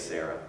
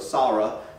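First: The first syllable does not sound like 'saw'. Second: The first syllable sounds like 'saw'. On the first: "but we say Sarah" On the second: "it would actually be pronounced S-A-W ... And then R-A-H"

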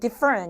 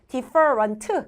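First: The final t sound is dropped. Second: The final t sound is clearly released. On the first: "그냥 different 이런 식으로" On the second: "different 귀찮죠?"

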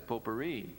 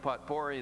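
First: It is said with French sounds, silent letters. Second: It is sounded out letter by letter. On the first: The speaker calls it right. "the correct pronunciation of that is potpourri" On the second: The speaker calls it wrong. "I'm a phonic pronouncer, and it looked to me like the phonics were that"

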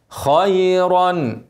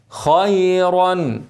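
No difference in how they are said.

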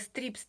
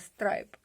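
First: The vowel sounds like 'ee', as in 'strip'. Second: The vowel sounds like 'eye', as in 'stripe'. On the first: The speaker calls it wrong. "сказала стріп" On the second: The speaker calls it right. "сама себе вже потім поправила страйп"

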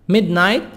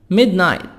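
The two takes are said the same way.

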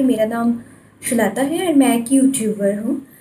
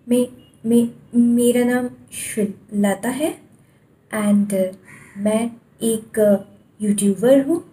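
First: It is said smoothly without any repeated sounds. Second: It is said with repeated, broken starting sounds.

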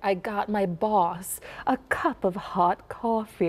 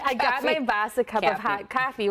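First: The vowels in hot coffee are not flattened. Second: The vowels in hot coffee are flat and open. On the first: "instead of like" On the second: "where we had that really flat, that ah sound"

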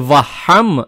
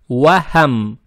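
First: The w and h sounds are harsh. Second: The w and h sounds are soft. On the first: The speaker calls it wrong. "не вахам" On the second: The speaker calls it right. "Букву вау произносим мягко, и букву ха тоже мягко"

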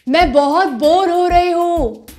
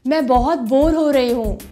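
First: It is said at a loud volume. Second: It is said at a medium volume.

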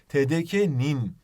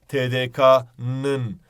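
First: The suffix is said with the front vowel 'i'. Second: The suffix is said with the back vowel 'ı'. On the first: The speaker calls it right. "Halbuki TDK'nin" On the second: The speaker calls it wrong. "Hep böyle işte TDK'nın"

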